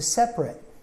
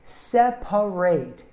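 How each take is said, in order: First: The word is said with two syllables. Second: The word is said with three syllables. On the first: "we usually cut out the second syllable" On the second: "Separate is a three-syllable word"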